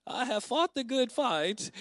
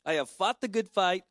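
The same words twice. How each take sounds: First: High, slow, drawn-out impression; Thelma. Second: Said in the usual way. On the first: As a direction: affectionately imitate an older friend's distinctive voice. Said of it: "saying that in her voice, in the Thelma voice".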